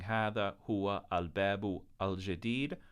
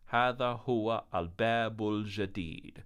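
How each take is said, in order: First: The last two words are said separately. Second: The last two words run together smoothly. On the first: The speaker calls it wrong. "Instead of saying" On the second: The speaker calls it right. "We're going to run them together"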